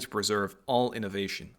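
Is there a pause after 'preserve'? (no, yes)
no. It runs on from preserve without a pause. Innovation is what the place preserves. The speaker calls it wrong.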